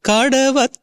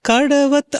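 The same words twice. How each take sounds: Both takes have the same delivery.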